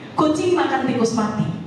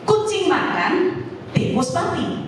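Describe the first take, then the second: First: It is said without any pause. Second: There is a pause after makan. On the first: A cat ate a dead rat. "ada seekor kucing yang memakan tikus mati" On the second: A cat is eating, and separately a rat died. "Ini ada dua peristiwa"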